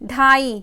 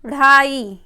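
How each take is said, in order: First: The first consonant is a full aspirated stop. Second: The first consonant is a quick aspirated flap. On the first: "हमारी जीभ आराम से ऊपर स्पर्श करती है" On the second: "ढाई के नीचे बिंदु लगा देते हैं"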